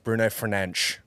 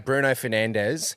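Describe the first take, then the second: First: The name is said with Portuguese pronunciation. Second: The name is said with English pronunciation.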